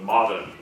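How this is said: The R sound is weak and barely pronounced. "there wasn't as much R in it"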